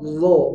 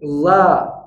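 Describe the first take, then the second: First: The vowel is thick, deep and rounded toward o. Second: The vowel is thin, light and open like a. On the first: The speaker calls it right. "Rahang tebal" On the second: The speaker calls it wrong. "Kalau dimundurin, ... nanti harokatnya tipis"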